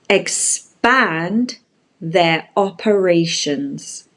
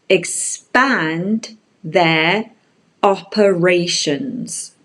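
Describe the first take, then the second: Both takes have the same delivery.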